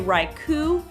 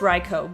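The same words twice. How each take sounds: First: The name is said to rhyme with haiku. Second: The name is said not rhyming with haiku. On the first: The speaker calls it wrong. "I tended to say Raikou, like haiku" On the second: The speaker calls it right. "okay, I get it, it's Raikou"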